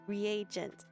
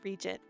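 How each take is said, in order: First: The word is said with three syllables. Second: The word is said with two syllables. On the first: The speaker calls it right. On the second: The speaker calls it wrong.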